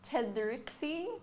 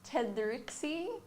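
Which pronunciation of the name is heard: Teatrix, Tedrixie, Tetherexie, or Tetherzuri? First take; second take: Tedrixie; Tedrixie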